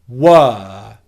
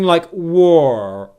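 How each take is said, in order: First: The vowel is a steady, held 'er' sound. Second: The vowel moves and glides during the sound. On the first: The speaker calls it right. "very simply hold the er vowel sound. Like this" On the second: The speaker calls it wrong. "don't move your mouth too much as you're making the er sound"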